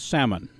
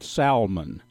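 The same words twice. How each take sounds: First: The word is said the standard way. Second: The word is said the East Texas way. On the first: "I understand the pronunciation is salmon" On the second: "I'm going to call it salmon"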